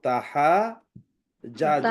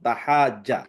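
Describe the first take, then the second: First: The two j sounds are said separately. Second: The two j sounds merge into one doubled j. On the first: This is the underlying original form. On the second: This is the form actually used.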